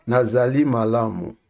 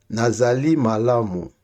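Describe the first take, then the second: No difference in how they are said.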